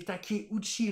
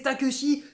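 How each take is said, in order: First: The name is read with Japanese syllable sounds. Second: The name is read with French spelling sounds. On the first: The speaker calls it right. "mais non, mais c'est Takeuchi" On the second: The speaker calls it wrong. "quand on prononce, bien sûr, à la française"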